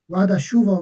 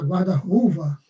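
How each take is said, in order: First: The second part begins with an 'sh' sound. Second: The second part begins with an 'r' sound. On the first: The speaker calls it right. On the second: The speaker calls it wrong.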